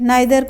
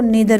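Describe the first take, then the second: First: The first vowel sounds like 'eye'. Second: The first vowel sounds like 'ee'. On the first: "नाइदर को नीदर भी pronounce कर सकते हैं" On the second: "नाइदर को नीदर भी pronounce कर सकते हैं"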